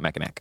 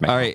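First: The word ends with a sounded final 'ack'. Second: The word ends with an open 'aw' sound. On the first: The speaker calls it wrong. "It's not Mackinac" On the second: The speaker calls it right. "It's Mackinac. That's how they say it up there"

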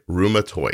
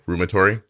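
First: The word ends with a 'toid' sound. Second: The word ends with a 'tory' sound. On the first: The speaker calls it right. "That is the correct pronunciation" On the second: The speaker calls it wrong. "And what do most people say?"

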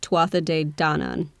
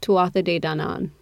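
First: The stress falls on 'Dan' in Danann. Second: The stress does not fall on 'Dan'. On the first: The speaker calls it right. "the emphasis is on the Don" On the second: The speaker calls it wrong. "I put the emphasis on the wrong syllable"

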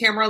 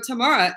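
First: The name rhymes with camera. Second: The name does not rhyme with camera. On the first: This is how the owner of the name says it. The speaker calls it right. "it's Tamara like camera" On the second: Someone else says it this way. The speaker calls it wrong. "they'll still come back and go"

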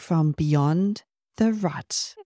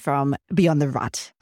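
First: The phrase is said slowly and carefully. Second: The phrase is said quickly. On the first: The speaker calls it right. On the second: The speaker calls it wrong.

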